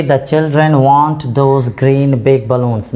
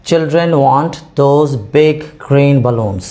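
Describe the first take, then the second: First: Slow, deliberate sentence with green before big, shown as a mistake; slow wrong example. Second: Slow, clear model sentence, big before green; slow correct example. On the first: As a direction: read it out as the wrong version. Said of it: "नहीं, order हमें correct रखना है". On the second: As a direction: read it as the correct model, word by word. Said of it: "हमने इनमें पहले लिखा है big". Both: Shown as a demonstration.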